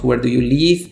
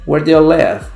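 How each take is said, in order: First: The last word has a long ee vowel. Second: The last word has a short i vowel. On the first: It sounds like the verb meaning to depart. The speaker calls it wrong. "Muy mal pronunciado si diríamos where do you live, porque live es el verbo marchar o dejar" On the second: It asks where someone resides. The speaker calls it right. "Entonces esto se lee where do you live"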